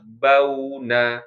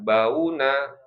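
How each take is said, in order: First: The first vowel sound is short and soft. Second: The first vowel sound is drawn out long. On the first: The speaker calls it right. "harusnya bauna" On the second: The speaker calls it wrong. "Jadi itu malah dipanjangkan"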